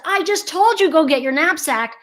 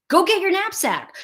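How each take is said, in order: First: Higher, exasperated mom repeating herself; impatient mom. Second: Said in the usual way. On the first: Retold or imitated. Mom to distracted child, mock exasperated repeat. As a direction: sound fed up that you have to say it twice. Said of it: "the mom has now said". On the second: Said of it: "the child only hears".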